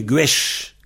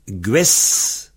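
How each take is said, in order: First: "gwesh" ending on a sh sound in place of s; final sh. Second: "Gues" ending on a clear hissed s; plain final s. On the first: Teacher showing the dialect change, "gwesh" with a final sh. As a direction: turn the end of "gwesh" into sh. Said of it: "on le prononce che". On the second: Teacher giving the standard form, "Gues" with a final s sound. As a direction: keep the s unchanged at the end of "Gues". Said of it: "le Z et le S". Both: Shown as a demonstration.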